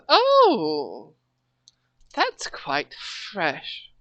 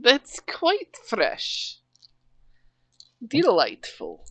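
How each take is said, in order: First: Mock posh queen, slow and soft; a hint of a regal accent; wrong accent. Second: Put-on slow, soft grand-lady accent, pitched higher; lightly posh regal lady voice. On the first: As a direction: drawl it out lightly as a grand lady. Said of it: "That's the wrong accent". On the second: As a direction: savour it like a pleased queen. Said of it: "And now I'm doing it".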